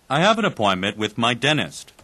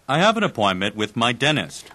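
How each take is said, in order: No difference in how they are said.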